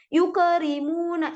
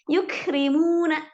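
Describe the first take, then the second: First: The k sound bounces with a short vowel. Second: The k sound ends with a light breath. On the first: The speaker calls it wrong. "kalau ada yang baca kaf tapi mantul yukerimuna itu salah" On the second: The speaker calls it right. "kaf itu hamas dikit tipis"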